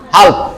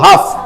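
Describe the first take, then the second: First: The L sound is pronounced before the final consonant. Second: The L sound is left out entirely. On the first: The speaker calls it wrong. "তুমি এল ধরে বলো তাহলে হবে হাল্প" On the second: The speaker calls it right. "ল ছাড়ে দেবো"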